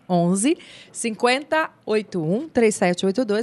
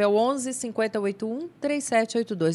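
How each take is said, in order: First: The number is said slowly. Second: The number is said quickly.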